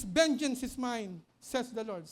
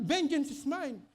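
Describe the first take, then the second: First: Vengeance is mine drawn out slowly with weight on vengeance; slow solemn quote, vengeance stressed; slow weighty quote of the Lord; quoting scripture slowly. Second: Vengeance is mine said at normal pace, vengeance lightly stressed; brisk quote of the verse; quick reminder of the Lord's words; quick scripture quote. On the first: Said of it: "Ang sabi ng Lord is". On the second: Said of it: "Kasi sabi ng Lord". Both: Acted.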